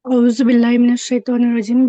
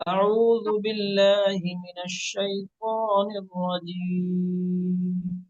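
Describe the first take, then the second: First: औज़ु बिल्लाहि मिनश शैतानिर रजीम rattled off fast and loud; rushed recitation. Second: औज़ु बिल्लाहि मिनश शैतानिर रजीम recited very slowly, every syllable drawn out; slow model recitation. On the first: Real, not acted. Student rushes before teacher, fast. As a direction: race through it. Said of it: "इत्मीनान से". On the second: Shown as a demonstration. Teacher models slow recitation for student. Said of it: "सिखाया गया उस तरह पढ़िए".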